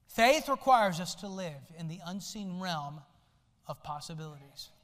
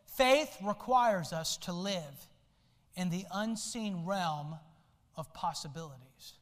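First: Said in the usual way. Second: Slow, weighty reading of the quote; slow reverent delivery of the quote; slow solemn quote. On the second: Shown as a demonstration. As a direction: let each phrase sink in slowly. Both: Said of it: "I want you to listen to this quote".

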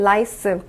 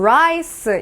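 First: "라이스" as lice, tongue tip touching; L sound. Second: "라이스" as rice, tongue curled back; English R. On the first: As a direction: open "라이스" with a light L. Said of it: "이거는 라이스". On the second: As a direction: open "라이스" with a rounded English R. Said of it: "분명히 라이스라고 읽어주셔야 돼요". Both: Shown as a demonstration.

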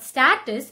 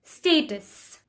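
First: Status with short A, stat-us; mispronounced status, short A; wrong status. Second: Status said stay-tus, slow; correct status. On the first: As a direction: say status with the A of cat. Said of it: "it's not status". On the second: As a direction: stretch the long A in status. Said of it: "the A sound is". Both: Shown as a demonstration.

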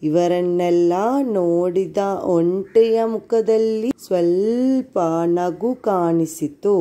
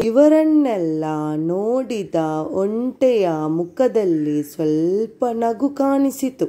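First: Put-on child repeating. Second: Model reading. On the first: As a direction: echo the line back like a pupil. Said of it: "ಅದನ್ನು ನನಗೆ ಓದಿ ಹೇಳ್ಬೇಕು". (ಮಕ್ಕಳು ಮರು ಓದುವಂತೆ) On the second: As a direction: clear teacher read-aloud, phrase by phrase. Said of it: "ಒಂದು page ಅನ್ನ ನಿಮ್ಗೆ ಓದಿ ಹೇಳ್ತೇನೆ". (ಮಕ್ಕಳಿಗೆ ಮಾದರಿ ಓದು) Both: Shown as a demonstration.

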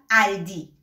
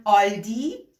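First: آلدی said with a short front ا like aldi in Persian; the other wrong Persian way; mispronounced with Persian ا; other wrong pronunciation. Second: آلدی said with a rounded Persian آ like ɔldi; the wrong Persian way, with ɔ; mispronounced with Persian آ; wrong pronunciation. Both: Shown as a demonstration.

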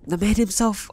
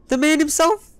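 First: Said in the usual way. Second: High, rising hail to a friend; excited greeting. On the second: Real, not acted. Spotting Benny, he hails him with a high excited call. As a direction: cheer as the trading partner appears.

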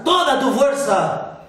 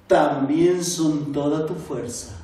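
First: "toda tu fuerza" called out high and loud; shouting. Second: "toda tu fuerza" said low and gentle; calm. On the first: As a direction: yell "toda tu fuerza" as an order. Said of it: "su maestro le gritó". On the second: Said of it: "El maestro se serenó". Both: A narrator's reading.

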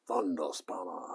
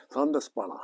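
First: Whispered repeat of the name. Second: Said in the usual way. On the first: Real, not acted. Whispering the mate's nickname to himself. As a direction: breathe the name to yourself.

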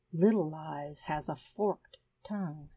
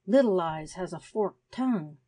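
First: Said in the usual way. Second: "Little Eyes has a forked tongue" with "Little" pressed firm and a falling close; with emphasis. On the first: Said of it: "Chapter five of Two". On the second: Acted. The lizard insisting to Nell, with firm emphasis on "Little". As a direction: lean on "Little" and drop the end firmly. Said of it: "repeated the lizard with emphasis".

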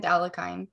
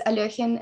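First: Anglicised Alekhine ending like "kine"; Alekhine as "Allakine". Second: Russian-style Alekhine, stressed in the middle; Alekhine as "Alyokhin". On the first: Presenter compares two versions, Alekhine as "Allakine". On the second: Presenter compares two versions, Alekhine as "Alyokhin". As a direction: say Alekhine like "al-YO-khin". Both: Shown as a demonstration. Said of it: "never know which one is right".

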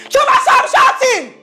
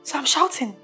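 First: High-pitched outraged shout. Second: Softer, held-in challenge; restrained disbelief. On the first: Boss confronts Chioma over being told off, shouting. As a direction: explode at the accusation, pitch up. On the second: Accused boss throws the charge back, restrained. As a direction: echo the accusation, holding the volume down. Stung by being told she shouts. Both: Acted.

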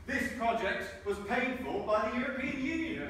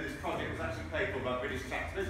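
First: High, slow, sarcastic reading of the sign; drawn-out mockery of the official wording. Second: Said in the usual way. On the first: Speaker mocking the EU sign wording with slow sarcasm. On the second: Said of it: "put little stickers on them saying".

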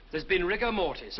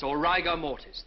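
First: Said in the usual way. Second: "rigor" said RYE-ger, long i, slowly; corrected pronunciation. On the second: Acted. Student correcting himself, "rigor" as RYE-ger, slowly.

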